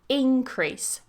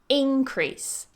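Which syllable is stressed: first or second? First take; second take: first; first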